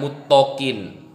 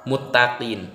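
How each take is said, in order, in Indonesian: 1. Suku kata t terdengar seperti 'to' yang berat. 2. Suku kata t terdengar seperti 'ta' yang ringan. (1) "bukan muttaqin" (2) "ta sama to itu beda"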